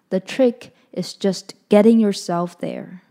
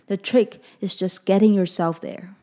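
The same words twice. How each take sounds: First: It is read a little more slowly. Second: It is read at a normal pace.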